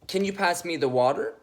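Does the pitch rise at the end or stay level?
rises. The pitch climbs upward at the end. The speaker is seeking approval and connection. "I'll do a trying for rapport tone first. ... See how it's going up?"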